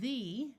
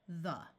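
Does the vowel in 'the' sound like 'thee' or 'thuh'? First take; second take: thee; thuh. First: The vowel is long, like 'thee'. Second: The vowel is reduced, like 'thuh'. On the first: "instead of saying the" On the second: "our mouths get kind of lazy"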